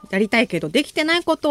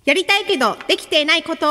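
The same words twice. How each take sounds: First: Said in the usual way. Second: Radio title call, higher than usual chat; theme title call. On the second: Real, not acted. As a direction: announce the segment title with a lift. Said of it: "今日のテーマはこちら".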